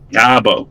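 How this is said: The R is dropped, in a Boston accent. "like he's from Boston"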